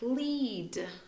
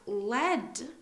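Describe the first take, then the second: First: The vowel is a long ee sound. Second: The vowel is a short e sound. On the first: It is a verb meaning to show the way. "Lead is a verb, and it means to direct or show the way" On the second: It is a noun naming a metal. "lead is a type of metal"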